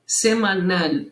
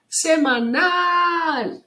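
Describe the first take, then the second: First: Said in the usual way. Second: High, drawn-out final nal in semanal; calling out semanal. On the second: Shown as a demonstration. Teacher showing how to find stress, semanal called out long. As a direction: call semanal slowly, stretching the nal. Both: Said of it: "É só chamar a palavra".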